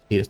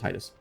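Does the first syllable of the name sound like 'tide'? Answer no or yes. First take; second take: no; yes. First: The first syllable does not sound like 'tide'. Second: The first syllable sounds like 'tide'. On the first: This is the official version of the name. The speaker calls it wrong. "I'm not calling him Titus" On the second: This is the speaker's preferred version of the name. The speaker calls it right. "like the tides"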